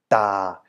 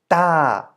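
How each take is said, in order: First: The pitch stays low throughout. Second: The pitch falls from high to low. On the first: "the low or deep tone" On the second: "In a falling tone"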